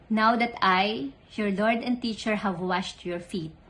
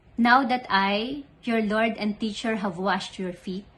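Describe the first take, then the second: The two takes are said the same way.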